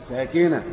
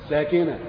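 No difference in how they are said.

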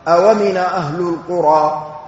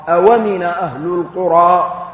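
Both takes have the same delivery.

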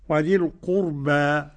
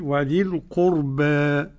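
First: The final vowel is an open a sound. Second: The final vowel leans slightly toward e. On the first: "الفتحه" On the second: "التقليل"

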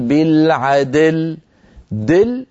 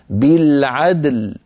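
First: The final d carries a faint i-like vowel. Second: The final d bounces lightly with no vowel. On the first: The speaker calls it wrong. "ولا نقول ... هذه الدال صار فيها شيء يشبه الكسر" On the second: The speaker calls it right. "نقلقل الدال وننتقل بلطف ورشاقة منها إلى اللام هكذا"

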